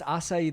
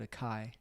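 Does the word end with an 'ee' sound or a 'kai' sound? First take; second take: ee; kai. First: The word ends with an 'ee' sound. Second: The word ends with a 'kai' sound. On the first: The speaker calls it right. "There's an accent on the C and the I" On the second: The speaker calls it wrong. "I called it a kai"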